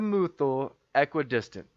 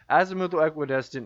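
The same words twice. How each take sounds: First: The phrase is said slowly and deliberately. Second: The phrase is said at normal conversational speed.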